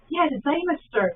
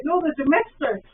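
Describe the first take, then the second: First: "demister" said as DY-mister, with a long "dy" sound; imitating her word. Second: "demister" said as dee-MIS-ter, louder and higher; firm correction, "demister" with a short "de"; correcting her. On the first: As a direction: copy her "demister" as "dymester". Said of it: "And she's like". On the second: Retold or imitated. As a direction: put the stress on the MIS of "demister". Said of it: "And I'm like".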